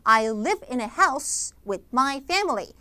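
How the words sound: Stress falls on the content words like live, house. The speaker calls it right. "강세를 주면서 읽는데"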